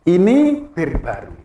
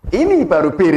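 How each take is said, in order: First: Slow, deliberate demo of Ini bir baru; intonation demo. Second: Ini baru bir with a louder, laughing push; reversed intonation demo. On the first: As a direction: say Ini bir baru slowly, each word set apart. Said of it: "intonasinya di, dibalik aja beda". (contoh intonasi, pelan dan jelas) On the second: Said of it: "Intonasinya dibalik udah beda". (intonasi dibalik, agak keras sambil tertawa) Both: Shown as a demonstration.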